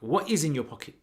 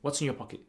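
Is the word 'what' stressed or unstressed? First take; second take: stressed; unstressed. First: The word what carries strong emphasis. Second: The word what carries no special emphasis. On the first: The asker can see something in the pocket. "there's more emphasis attached to it" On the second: The asker is just asking without knowing. "rather than saying"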